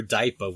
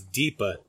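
First: "daipa" with a first syllable like "die"; pronounced DIE-pa. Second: "deepa" with a long ee in the first syllable; pronounced DEE-pa. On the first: Host offers another reading of D I P A, "daipa" said DIE-puh. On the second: Host shows how people misread D I P A, "deepa" said DEE-puh. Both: Shown as a demonstration. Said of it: "however they wanna pronounce it".

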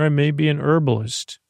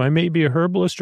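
First: "herbalist" without its h; quick line, h dropped from "herbalist"; silent H. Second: "herbalist" with an audible h; quick line, h kept on "herbalist"; sounded H. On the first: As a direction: say "herbalist" as ER-buh-list, briskly. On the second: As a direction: say "herbalist" as HER-buh-list, briskly. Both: Acted. Offers both pronunciations of herbalist.

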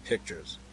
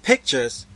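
First: Low, soft, dry echo. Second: Higher, loud cry of disappointment. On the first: Man echoes the girl's word, dryly. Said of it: "echoed the man dryly". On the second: Girl sees the knapsack's contents, disappointed cry. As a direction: cry the word out, let down. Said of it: "gave a cry of disappointment". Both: A narrator's reading.

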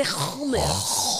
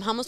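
First: "hummus" with an exaggerated throaty KH start. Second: Said in the usual way. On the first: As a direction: scrape the first sound of "hummus" as KH. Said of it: "I definitely don't do the". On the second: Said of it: "Steve goes".

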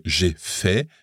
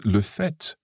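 First: "j'ai fait" with the final T left silent. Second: "le fait" with a clearly sounded final T; final T pronounced. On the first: Teacher contrasting participle with noun, "fait" ending without a T. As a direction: end "fait" on the vowel, no T. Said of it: "then we don't pronounce the T". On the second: Teacher contrasting noun with participle, "fait" ending in an audible T. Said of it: "then we pronounce that T". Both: Shown as a demonstration.

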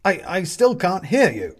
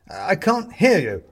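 First: High, loud, stumbling shout; calling again. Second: High, loud, slow shout; calling back. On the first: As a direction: call back louder over the noise. More jumping and waving. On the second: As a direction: call it slowly across a distance. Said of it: "he stops and calls back". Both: A narrator's reading.

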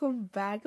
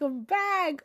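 First: Said in the usual way. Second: Higher, bursting with joy; excited. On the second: Real, not acted. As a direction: announce your return with delight. Repeats I'm back, growing excited.

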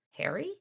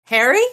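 First: Much softer, rising; startled question. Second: High, loud rising call. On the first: Thomas suddenly recognizing his brother, soft and startled. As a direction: breathe the name out in shock. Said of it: "his expression startled". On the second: Elaine calling for Harry, high and loud. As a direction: call out searching for him. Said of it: "called Elaine's voice high and loud". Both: Acted.

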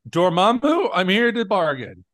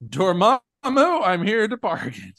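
First: Higher, dramatic hero line; lightly hammed Doctor Strange; mock repeated take. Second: Another take, new inflection. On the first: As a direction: act out one take of many. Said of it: "Thirty times". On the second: Retold or imitated. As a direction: try the line a new way. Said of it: "Slightly different inflection".

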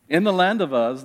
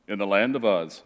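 First: "In the land of Uz" launched louder, with lively storyteller emphasis; expressive reading. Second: "In the land of Uz" read low, like a dull droning recitation; deliberately dull and low, drained of life on "Uz"; boring reading. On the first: Pastor models reading Scripture with inflection, louder and lively. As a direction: open the story with energy, leaning on "the land". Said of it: "as I put a little bit of emphasis into certain things".

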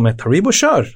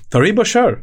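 First: Said in the usual way. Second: "kör" lifted high with a firm fall; emphatic repeat. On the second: Retold or imitated. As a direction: hammer home "kör", pitch up. (betonat "kör", högre och bestämt)

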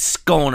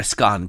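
First: "scone" with a long O, as in bone; scone rhyming with bone. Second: "scone" with a short open O, as in gone; scone rhyming with gone. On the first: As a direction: say "scone" to rhyme with tone. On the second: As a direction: say "scone" to rhyme with on. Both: Shown as a demonstration. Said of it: "Some people call it a scone".

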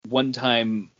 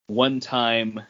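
Both takes have the same delivery.

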